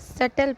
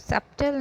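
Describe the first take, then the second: First: No b sound is heard before the t. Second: A b sound is heard before the t. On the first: The speaker calls it right. "सटल पढ़ेंगे" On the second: The speaker calls it wrong. "इसको सप्टल नहीं"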